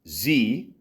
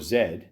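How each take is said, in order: First: The letter is said the American way. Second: The letter is said the Canadian way.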